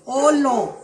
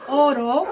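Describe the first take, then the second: First: "olo", with L replacing the R of oro. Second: Said in the usual way. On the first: Shown as a demonstration. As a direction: imitate a child's substitution: "olo". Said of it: "¿Con qué lo sustituye?". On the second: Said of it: "cuando dicen oro".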